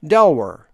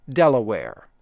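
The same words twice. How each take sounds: First: "Delaware" clipped to two syllables, "Del-wer"; Eastern Shore accent. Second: "Delaware" in full standard three syllables, "Del-a-ware"; standard pronunciation. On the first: Announcer giving the local Eastern Shore "Delaware". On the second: Announcer correcting to the neutral "Delaware". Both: Shown as a demonstration. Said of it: "My accent is referred to as Eastern Shore".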